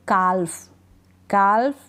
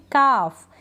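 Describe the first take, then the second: First: काल्फ with a clear L before the F; L wrongly sounded. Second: काफ with a long vowel straight into F; drawn-out model काफ, L left out; silent L. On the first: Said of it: "काल्फ नहीं पढ़ेंगे". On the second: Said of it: "हम पढ़ेंगे". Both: Shown as a demonstration.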